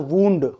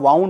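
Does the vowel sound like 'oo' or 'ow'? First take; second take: oo; ow. First: The vowel sounds like 'oo' in 'moon'. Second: The vowel sounds like 'ow' in 'cow'. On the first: It means an injury. "उसका pronunciation होता है वूंड" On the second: It is the past form of the verb wind. "उसका pronunciation होता है वाउंड"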